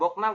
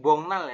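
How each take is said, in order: First: The consonant before the n is a k. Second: The consonant before the n is ng. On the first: The speaker calls it wrong. "bukan Boknal" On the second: The speaker calls it right. "tapi Bongnal"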